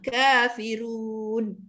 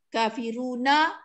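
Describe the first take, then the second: First: It ends on a silent n after a long vowel. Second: The final n is followed by a short vowel. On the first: The reading stops at this word. "kita yang sederhana kita baca empat harakat" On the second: The reading continues into the next word. "kalau kita wasal"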